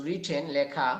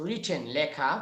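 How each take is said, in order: The two takes are said the same way.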